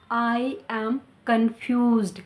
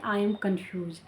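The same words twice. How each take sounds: First: Very slow, confused with a clear ed; slow correct take. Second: "confused" said without the final d; the wrong way, quick and clipped ending; wrong take. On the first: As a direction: say it slowly with the ending. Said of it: "हम इसे ऐसे नहीं बोलेंगे". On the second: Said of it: "ये grammatically wrong है". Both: Shown as a demonstration.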